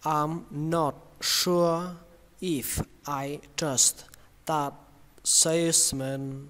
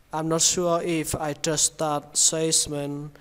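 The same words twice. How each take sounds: First: Very slow, word by word; slow model reading. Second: Said in the usual way. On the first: Shown as a demonstration. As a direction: read it slowly for learners. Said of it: "Cả câu này các bạn đọc như thế này". (đọc chậm từng từ) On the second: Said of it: "Các bạn cứ đọc bình thường cũng được".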